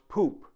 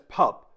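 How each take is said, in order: First: The vowel is a long 'oo' sound. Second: The vowel is a short 'uh' sound. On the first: The speaker calls it right. "It is pronounced poop" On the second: The speaker calls it wrong. "commonly mispronounced in English as pup"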